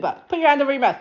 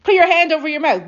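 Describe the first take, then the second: First: "put your hand over your mouth" said through a covering hand, muffled. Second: Said in the usual way. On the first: Shown as a demonstration. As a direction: speak it with your palm pressed over your lips. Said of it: "I can't talk while I'm doing it". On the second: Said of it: "Do that while I'm speaking".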